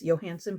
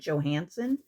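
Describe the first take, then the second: First: The name begins with a Y sound. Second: The name begins with a J sound. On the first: This is how it is said where the name comes from. "originally where this is from, they pronounce this" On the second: This is how most people here say it. "most people would probably pronounce it"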